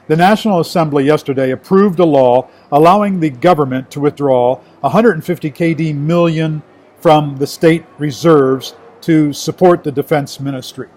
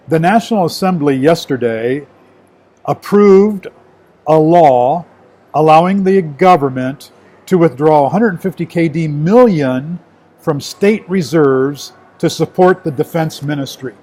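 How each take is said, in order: First: It is read at a faster pace. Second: It is read at a slower pace.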